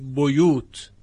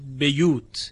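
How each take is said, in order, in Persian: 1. هجای اول مصوت u دارد. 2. هجای اول مصوت i دارد. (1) "با باء مضموم خوانده شده" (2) "به کسر الباء خونده شده"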